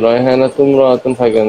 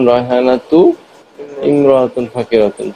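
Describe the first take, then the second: First: The words run together without a pause. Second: There is a pause after 'tu'. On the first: "একসাথে বলতে" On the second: "তু বলে থেমে যাবে"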